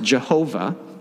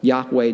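First: The name begins with a J sound. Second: The name begins with a Y sound. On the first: This is the traditional historical pronunciation. The speaker calls it wrong. "historically has been pronounced Jehovah" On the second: This is probably closer to the original pronunciation. The speaker calls it right. "probably more accurately pronounced as Yahweh"

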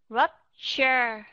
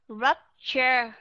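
No difference in how they are said.

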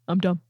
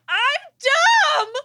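First: It is said quietly, without shouting. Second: It is screamed very loudly.

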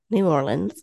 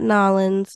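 First: The name is said in full syllables. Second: The name is clipped into two short syllables. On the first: The speaker calls it right. "that's the proper pronunciation" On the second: The speaker calls it wrong. "Not Nollins"

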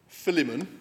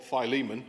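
First: The middle has no long 'ee' sound. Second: The middle has a long 'ee' sound. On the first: "so I just call him Philemon" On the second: "as it's probably pronounced"

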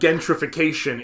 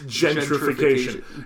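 First: The word begins with a hard G sound. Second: The word begins with a J sound. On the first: The speaker calls it wrong. "it's not" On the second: The speaker calls it right. "The G can be pronounced as a J"

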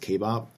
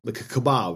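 First: Kebab is pronounced the local Austrian way. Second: Kebab is pronounced the familiar American way. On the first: "the way they pronounce it is kebab" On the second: "Like a kebab, right? Same thing"

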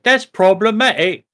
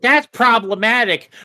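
First: It is spoken in a British accent. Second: It is spoken in an American accent. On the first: The criticism sounds less annoying. The speaker calls it right. "if you say PC things in a British accent" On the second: The criticism sounds annoying. The speaker calls it wrong. "don't say it in an American accent"

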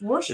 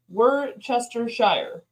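First: Several written syllables of the word are dropped. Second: Every written syllable of the word is pronounced. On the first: The speaker calls it right. "It's Worcestershire" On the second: The speaker calls it wrong. "when you look at it spelled, it's Worcestershire. That's not how you say it"

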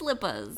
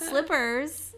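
First: The word ends with an 'ah' sound. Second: The word ends with an 'er' sound. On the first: The speaker calls it right. "It's slippas. S-L-I-P-P-A-H-S" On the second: The speaker calls it wrong. "it's not slippers"

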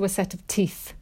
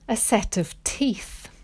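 First: The words are said quickly and run together. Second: The words are said slowly and clearly.

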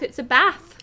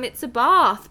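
First: It is said in a more northern accent. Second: It is said in the speaker's local accent.

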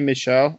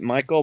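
First: The name sounds like Michelle. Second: The name sounds like Michael. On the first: "but maybe Michelle" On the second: "I've heard it Michael"

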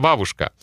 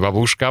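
First: The stress is on the first syllable. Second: The stress is on the second syllable. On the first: The speaker calls it right. "а бабушка" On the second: The speaker calls it wrong. "не бабушка"

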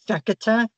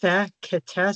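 First: The name is said very quickly. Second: The name is said at a slower pace.

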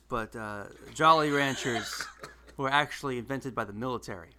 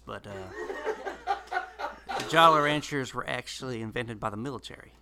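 First: It is said in the speaker's ordinary accent. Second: It is said in a Southern US accent.

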